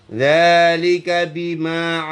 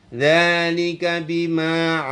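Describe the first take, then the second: No difference in how they are said.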